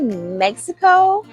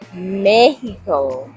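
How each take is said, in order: First: The word is said with an English pronunciation. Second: The word is said with a Spanish pronunciation. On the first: "in the English American way" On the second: "the proper way or the way that native Hispanics say it in Spanish"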